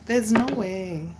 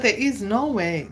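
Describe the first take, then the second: First: Said in the usual way. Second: "is" punched higher and louder; stress on IS. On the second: Acted. Ghosted woman insisting to herself, stressed IS. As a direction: lean hard on "is".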